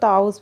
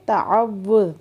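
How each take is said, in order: First: The middle w sound is dropped entirely. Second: The middle w sound is doubled and held. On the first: The speaker calls it wrong. "आमतौर पर हम लोग इसको ताउज़ पढ़ते हैं, जो कि गलत है" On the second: The speaker calls it right. "वाव पे सख्ती करेंगे"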